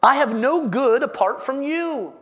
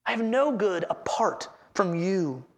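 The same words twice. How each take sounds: First: Said in the usual way. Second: A hushed, sincere echo of the verse; quiet echo. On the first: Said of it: "He says". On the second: Shown as a demonstration. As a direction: repeat it quietly, letting it sink in.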